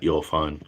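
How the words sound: It is said in a Joey from Friends impression.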